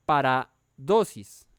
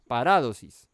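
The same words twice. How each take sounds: First: "paradosis" slowly split as para, dosis; misplaced stress. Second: "paradosis" punched loud on RA, pa-RA-dosis; stress on the A. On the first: Preacher introducing the Greek word, misplaced stress. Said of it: "o no mentiras". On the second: Preacher correcting his Greek word, stress on RA. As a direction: hit the second syllable of "paradosis", the A in RA. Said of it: "tilde en la A". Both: Shown as a demonstration.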